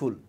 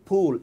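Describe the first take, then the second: First: It starts with an f made with lip and teeth. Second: It starts with a puff made with both lips. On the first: It sounds like the English word for a silly person. The speaker calls it wrong. "এই ফুল মানে কিন্তু ওই যে বোকার যে ফুল" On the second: It means flower. The speaker calls it right. "এটা ফুল"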